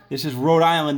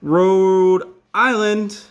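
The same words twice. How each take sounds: First: Said in the usual way. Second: Slow and drawn out. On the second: Shown as a demonstration. Writing the name on map.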